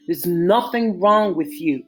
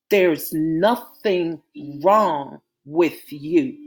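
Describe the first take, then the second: First: Firm, steady and sure; said firmly. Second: Gentle reassurance. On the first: Malik reassures scared Natasha, firmly. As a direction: shut down her worry with certainty. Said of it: "Malik said firmly". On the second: Malik embraces Natasha and soothes her, slow and tender. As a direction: ease her fears, very slowly. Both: A narrator's reading.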